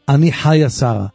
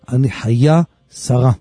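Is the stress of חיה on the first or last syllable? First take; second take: first; last. First: The name is stressed on its first syllable. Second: The name is stressed on its last syllable. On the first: The speaker calls it wrong. "אתם לא תאמרו לו" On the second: The speaker calls it right. "אני חיה שרה מלרע"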